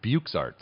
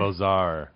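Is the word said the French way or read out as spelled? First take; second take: as spelled; French way. First: The word is sounded out as it is spelled. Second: The word is said the French way. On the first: The speaker calls it wrong. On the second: The speaker calls it right.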